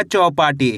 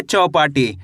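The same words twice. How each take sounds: First: Said in the usual way. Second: चौपाटी said alone, lower, with a falling close; चौपाटी as a clear lower model word for pupils; model reading. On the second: Shown as a demonstration. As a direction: set चौपाटी down as the answer, lower and final. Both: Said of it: "कैसे पढ़ेंगे?".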